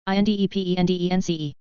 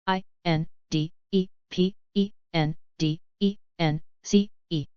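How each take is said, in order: First: Quick letter run; brisk recap spelling; fast spelling. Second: Slow, letter by letter; unhurried classroom spelling. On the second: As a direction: spell each letter out slowly. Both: Shown as a demonstration. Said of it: "spelling drill, slow then fast".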